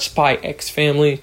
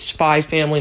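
First: The title is said with the letter X. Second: The title is said without the letter X. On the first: The speaker calls it wrong. "not Spy X Family" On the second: The speaker calls it right. "you don't pronounce the X. It's Spy Family"

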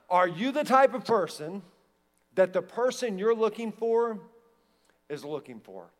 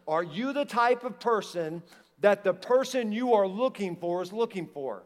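First: It is said at a slower pace. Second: It is said at a quicker pace.

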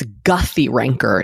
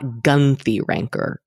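First: The first name has no n sound. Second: The first name has an n sound. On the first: The speaker calls it right. "It's Guthy Ranker" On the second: The speaker calls it wrong. "not Gunthy Ranker"

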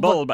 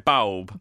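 First: It is said in a northern English accent. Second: It is said in a southern English accent. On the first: "It's a northern thing" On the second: "down here they say bulb"

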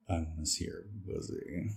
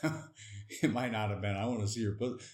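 First: It is said in a menacing, creepy tone. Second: It is said in a light, playful tone. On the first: It comes across as threatening catcalling. "I might have changed the tone of my voice" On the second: It is meant as a harmless, quirky joke. "So it might not have been"

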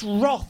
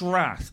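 First: The vowel is short and rounded, rhyming with 'moth'. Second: The vowel is open and flat, like in 'cat'. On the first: "It's pronounced Roth in this country" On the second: "In America, it's pronounced Wrath"

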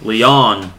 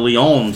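First: The name is pronounced in a Hispanic-sounding way. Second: The name is pronounced in a French-sounding way. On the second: "Leon sounds more French"

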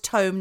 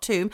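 First: The vowel rhymes with 'home'. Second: The vowel rhymes with 'room'. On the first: The speaker calls it right. "It was tome" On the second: The speaker calls it wrong. "not tomb"

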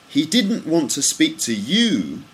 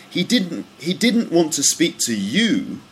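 No difference in how they are said.

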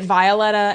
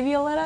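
First: The name is pronounced the Irish way. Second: The name is pronounced the Italian way. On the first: "the Irish people say it Violetta" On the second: "the Italian people maybe say Violetta"

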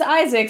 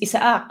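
First: The name is said the English way. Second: The name is said the Filipino way. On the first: This is how the owner of the name says it. "But I've always said it as Isaac" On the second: This is how it is said in the Philippines. "kung nasa Philippines, Isaac, syempre"

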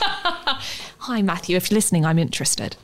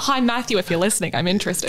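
First: It is spoken in a put-on English accent. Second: It is spoken in the speaker's usual accent.

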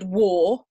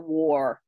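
First: The final R is not pronounced. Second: The final R is clearly pronounced. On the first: "has no R curl to it" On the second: "You get that R happening"

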